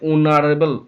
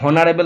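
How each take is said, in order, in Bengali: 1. শব্দটি স্বরধ্বনি দিয়ে শুরু হয়। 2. শব্দটি h ধ্বনি দিয়ে শুরু হয়। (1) "এই উচ্চারণটা হচ্ছে অনারেবল" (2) "এই উচ্চারণটা হনারেবল নয়"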